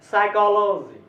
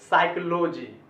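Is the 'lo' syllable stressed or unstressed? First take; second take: stressed; unstressed. First: The 'lo' syllable is held with raised pitch. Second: The 'lo' syllable is not held or raised. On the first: The speaker calls it right. "इसको पढ़ना चाहिए" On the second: The speaker calls it wrong. "Generally हम लोग ऐसे बोलते आए हैं"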